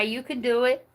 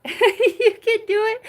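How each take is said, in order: First: Said in the usual way. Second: Laughing through the words. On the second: Real, not acted. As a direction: say it while cracking up. Repeats line, now laughing.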